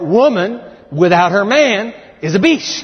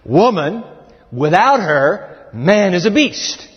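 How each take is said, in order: First: There is a pause before 'without her'. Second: There is a pause after 'her'.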